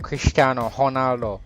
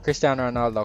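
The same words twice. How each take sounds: First: The name is said with a Portuguese accent. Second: The name is said with an English accent.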